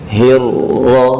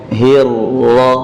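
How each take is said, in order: Both takes have the same delivery.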